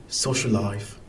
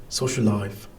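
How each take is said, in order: The two takes are said the same way.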